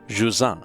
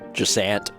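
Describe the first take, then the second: First: The name is said with French pronunciation. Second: The name is said with English pronunciation. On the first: "the best I can possibly do with the French the French pronunciation" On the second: "you could also pronounce it like Jusant"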